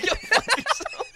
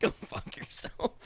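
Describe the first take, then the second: First: High, slow go fuck yourself breaking into laughter; laughing retort. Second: Hushed, breathy go fuck yourself, half joking; whispered retort. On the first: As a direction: laugh it out in mock outrage. Friend calls him racist, jokingly. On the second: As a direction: breathe it out under your breath, no voice. Teasing retort to a friend. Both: Real, not acted.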